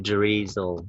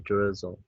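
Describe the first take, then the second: First: The first vowel is a long 'ee' sound. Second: The first vowel is a short 'i' sound. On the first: The speaker calls it wrong. "We don't say drizzle" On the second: The speaker calls it right. "We say drizzle"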